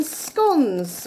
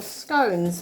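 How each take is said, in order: First: "scones" rhyming with "dons"; "scones" with a short o. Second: "scones" rhyming with "stones"; "scones" with a long o. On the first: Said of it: "or scones, however you say". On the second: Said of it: "however you say". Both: Shown as a demonstration.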